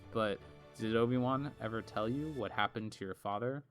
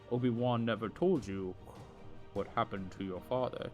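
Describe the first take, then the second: First: It is said in the speaker's normal voice. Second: It is said in an imitated Darth Vader voice.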